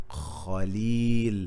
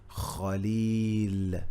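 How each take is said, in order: No difference in how they are said.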